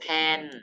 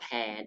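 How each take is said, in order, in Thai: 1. พยางค์นี้เป็นเสียงโท 2. พยางค์นี้เป็นเสียงจัตวา (1) "ไม้โท" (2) "หอแอนอแผน"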